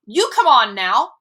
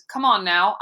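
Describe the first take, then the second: First: Much louder, higher scream; screamed back. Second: Said in the usual way. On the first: A narrator's reading. Boy screaming the coach's words back at him. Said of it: "I screamed". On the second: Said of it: "Then he added".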